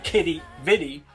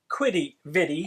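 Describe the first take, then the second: First: The name begins with a plain k sound. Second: The name begins with a kw sound. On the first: The speaker calls it right. "check out Kitty Vitty" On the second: The speaker calls it wrong. "not Quitty Vitty"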